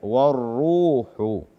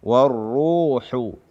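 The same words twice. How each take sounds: No difference in how they are said.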